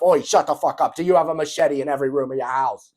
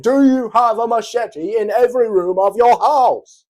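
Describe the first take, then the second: First: Louder British cut-off, machete question barked; hammed-up British tough guy interrupting; mock Andrew Tate British shout. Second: Much higher, much louder British shout; mock furious British yell. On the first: Andrew Tate cutting Ashton off, loud mock British demand. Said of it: "He's like". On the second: Andrew Tate repeating machete question, hammed-up British yell. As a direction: scream the machete question like a cartoon tough guy. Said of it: "I said".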